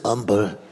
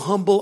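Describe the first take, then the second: First: The word starts without an h sound. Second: The word starts with an audible h sound.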